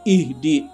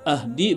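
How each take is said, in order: First: The word begins with an i vowel. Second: The word begins with an a vowel. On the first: The speaker calls it right. "Jadi dibaca ihdi" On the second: The speaker calls it wrong. "bukan ahdi"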